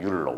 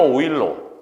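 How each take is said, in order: First: The name begins with a 'yu' sound. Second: The name begins with an 'oi' sound. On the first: "율러 원래" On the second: "오일러 들어봤지?"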